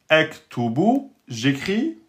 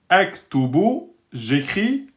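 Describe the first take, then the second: The two takes are said the same way.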